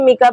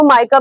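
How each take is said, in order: First: The first vowel sounds like 'ee'. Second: The first vowel sounds like 'eye'. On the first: "मिका भी बोलते हैं, different pronunciation है" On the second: "इसको माइका भी बोलते हैं"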